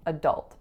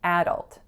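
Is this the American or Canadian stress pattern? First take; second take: American; Canadian. First: The word carries the American stress pattern. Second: The word carries the Canadian stress pattern.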